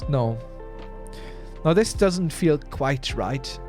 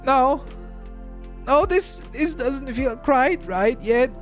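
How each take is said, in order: First: It is said in a voice unlike Chalky's. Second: It is said in Chalky's character voice.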